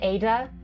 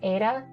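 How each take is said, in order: First: The middle consonant is a clear D sound. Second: The middle consonant is a quick tongue tap. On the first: "so you could pronounce it as Ada" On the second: "With my accent, I pronounce it as Ada, which, yes, you might notice is neither a D nor a T sound. It is an alveolar tap"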